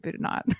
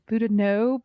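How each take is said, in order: First: The name is said the local regional way. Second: The name is said the standard way. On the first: This is how people in the region say it. "in here in Eastern Oklahoma, we say Boudinot" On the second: This is the proper pronunciation. "the proper pronunciation is Boudinot"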